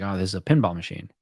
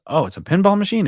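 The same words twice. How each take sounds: First: Said in the usual way. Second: High, fast incredulous echo; surprised question. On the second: Retold or imitated. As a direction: mimic the guy's surprise, pitched up. Delivery guy's surprised retold question.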